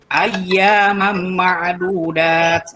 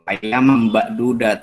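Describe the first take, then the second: First: The throat sound in ma'dudat is clearly pronounced. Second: The throat sound is dropped, sounding like bak. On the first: The speaker calls it right. "itu yang benar ya" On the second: The speaker calls it wrong. "saya dengernya bak gitu"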